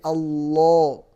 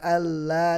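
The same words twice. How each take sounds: First: The l sound is thick and heavy. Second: The l sound is thin and light. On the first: The speaker calls it right. "maka lamnya dibaca tebal" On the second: The speaker calls it wrong.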